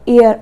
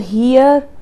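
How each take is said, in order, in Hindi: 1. शब्द एक स्वर से शुरू होता है, 'h' नहीं। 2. शब्द 'h' ध्वनि से शुरू होता है। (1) "एच यहाँ पर साइलेंट रहता है" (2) "हम इसको हियर हेयर नहीं पढ़ेंगे"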